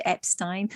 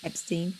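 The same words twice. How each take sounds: First: "Epstein" ending like "stine"; second syllable of "Epstein" rhymes with "mine". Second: "Epstein" ending like "steen"; second syllable of "Epstein" rhymes with "seen". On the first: Says the name two ways. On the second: Laughs, re-says name the other way. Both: Shown as a demonstration.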